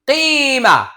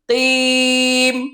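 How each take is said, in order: First: The word ends with an open vowel. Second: The word ends on a closed consonant. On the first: The reading continues without stopping. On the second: The reader stops at the end of the verse.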